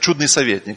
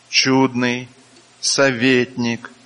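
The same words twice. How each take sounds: First: The two words run together without a pause. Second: A pause separates the two words. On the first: It is one name, a wonderful counselor. The speaker calls it wrong. "бывает, говорят, чудный советник. Нет" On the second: These are two separate names in a list. The speaker calls it right. "Почему я так зачитываю?"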